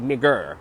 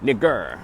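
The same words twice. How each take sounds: Both takes have the same delivery.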